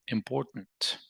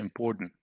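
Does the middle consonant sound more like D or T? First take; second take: T; D. First: The middle consonant sounds like a T. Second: The middle consonant sounds like a D. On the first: "So what we end up saying is important" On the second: "T becomes a D sound, so you can say important"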